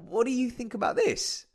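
The tone sounds happy and open. The speaker is inviting the listener's opinion. The speaker calls it right. "switching the tone from angry or sad to something quite happy and open"

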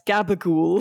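It is said the Italian-American way, gabagool.

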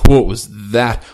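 It is said with a frustrated, groaning tone. The play was a blunder.

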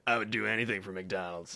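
It sounds careless and indifferent.

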